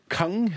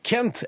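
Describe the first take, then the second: First: The name ends with an 'ang' sound. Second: The name ends with an 'ent' sound.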